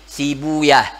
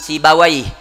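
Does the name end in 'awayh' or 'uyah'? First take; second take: uyah; awayh. First: The name ends with the sounds 'uyah'. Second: The name ends with the sounds 'awayh'. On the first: Hadith scholars prefer this reading. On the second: Language scholars prefer this reading.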